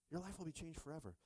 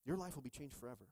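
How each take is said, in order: Both takes have the same delivery.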